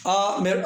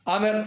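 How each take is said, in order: First: आमिर split as आ-मिर; आ, then मिर, held apart; syllable by syllable. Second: Said in the usual way. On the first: Shown as a demonstration. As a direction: break आमिर into two clear beats. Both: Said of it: "इसमें दो है".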